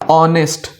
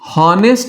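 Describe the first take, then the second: First: The word begins directly with a vowel sound. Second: The word begins with an audible h sound. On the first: The speaker calls it right. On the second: The speaker calls it wrong.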